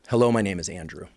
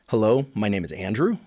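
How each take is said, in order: First: It is said as a plain statement, falling. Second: It is said as a question, rising. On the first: It states a fact. "with that same statement" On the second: It asks something. "I make it a question"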